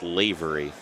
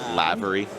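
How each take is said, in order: First: The first vowel is a long A sound. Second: The first vowel is a short A sound. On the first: The speaker calls it right. "it's that nice long A" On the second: The speaker calls it wrong. "I get a lot of lavery"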